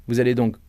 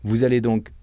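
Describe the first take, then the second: No difference in how they are said.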